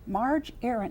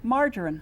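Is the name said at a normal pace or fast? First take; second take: normal; fast. First: The name is said at a normal pace. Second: The name is said quickly, blended together.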